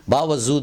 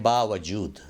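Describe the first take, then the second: First: 'बावजूद' with z in place of j; wrong pronunciation. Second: 'बावजूद' with a clear j; correct pronunciation. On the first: Teacher warns against this version, mispronounced. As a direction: put a buzzing z in 'बावजूद'. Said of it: "बावजूद बोलना गलत है". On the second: Teacher gives the proper word, correctly pronounced. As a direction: say 'बावजूद' as baa-wa-jood. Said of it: "इसको बोलें बावजूद". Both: Shown as a demonstration.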